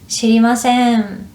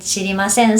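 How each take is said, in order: First: It is said in a gentle, softened tone. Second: It is said in a plain, blunt tone. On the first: The answer sounds polite and less abrupt. The speaker calls it right. "I would change my tone and make the sentence softer" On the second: The refusal sounds harsh and final. The speaker calls it wrong. "sounds strong"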